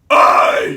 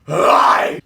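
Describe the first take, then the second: First: The scream pushes straight into the word. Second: The scream builds up gradually into the word. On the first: The speaker calls it right. "condense your wind up" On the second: The speaker calls it wrong. "instead of going I"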